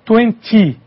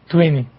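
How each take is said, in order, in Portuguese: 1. O som do T no meio é pronunciado claramente. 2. O som do T no meio é omitido. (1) "o britânico ele vai ter o som acentuado de T" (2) "No inglês americano, no caso do vinte, esse T não vai ter som"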